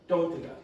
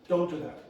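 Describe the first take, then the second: Both takes have the same delivery.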